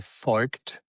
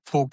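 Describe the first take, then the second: First: The name is said with a southern German pronunciation. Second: The name is said with a northern German pronunciation. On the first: "In southern part, you would say" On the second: "is in northern part"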